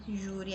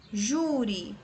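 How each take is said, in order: First: Said in the usual way. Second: Júri drawn out, weight on "Jú"; syllable stress. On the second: Shown as a demonstration. Teacher sounding out words for students, drawn-out "Jú" in Júri. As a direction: hold the JÚ of Júri. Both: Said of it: "Você vai pronunciar aí devagarzinho".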